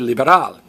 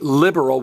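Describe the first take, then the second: First: The stress is on a later syllable. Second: The stress is on the first syllable. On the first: "In Spanish, we say liberal" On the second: "In English, we say liberal, we stress the I"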